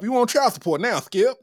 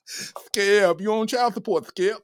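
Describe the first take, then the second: First: Shannon Sharpe impression. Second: High, half-whispered mock taunt at Skip; hushed Shannon Sharpe impression. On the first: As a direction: taunt Skip, pitched up. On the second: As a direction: breathe it to Skip, pitched up. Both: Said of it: "she got them Shannon Sharpe features".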